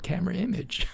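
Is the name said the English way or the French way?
English. The name is said with an English pronunciation. This is how the organizers call it. The speaker calls it right. "The American influence"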